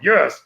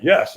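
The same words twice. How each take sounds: First: Retold, more forceful yes; stronger yes. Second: Said in the usual way. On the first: Walker answering trainer's call for more strength, mildly forceful. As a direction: push the word out with effort. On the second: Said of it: "Squeeze your fist and say yes".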